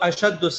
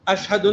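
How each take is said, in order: First: The word has a long doubled d sound. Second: The word has an h sound before d. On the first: The speaker calls it right. "इस तरह बोलो।" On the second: The speaker calls it wrong. "ने"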